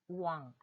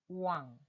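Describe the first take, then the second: The two takes are said the same way.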